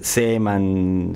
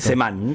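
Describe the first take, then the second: First: The stress is on the first syllable. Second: The stress is on the last syllable. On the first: The speaker calls it wrong. "se pronuncia muchas veces muy mal" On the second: The speaker calls it right. "Semán, con acento en la"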